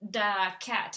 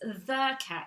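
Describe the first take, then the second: First: The first word starts with a hard d sound. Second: The first word starts with a soft th sound. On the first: The speaker calls it wrong. "so that's why she pronounces it like that" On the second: The speaker calls it right. "it's the cat"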